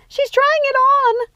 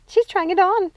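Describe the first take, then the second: First: Much higher, louder, slow drawn-out squeal; thrilled squeal. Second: Higher eager report; rising delight; excited. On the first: Sister squealing as Rapunzel tries on the crown. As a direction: squeal it with delight. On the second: Sister watching Rapunzel, eagerly higher. First take. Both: Acted.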